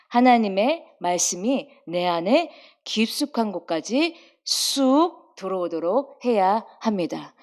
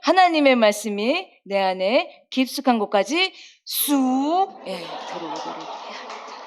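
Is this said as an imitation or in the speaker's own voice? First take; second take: own voice; imitation. First: It is said in the speaker's ordinary voice. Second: It is said in a put-on, imitated voice.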